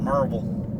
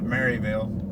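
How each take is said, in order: First: The name is said in a clipped, shortened form. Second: The name is said in a fuller, longer form. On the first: "the people here pronounce it Merville" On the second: "instead of Maryville"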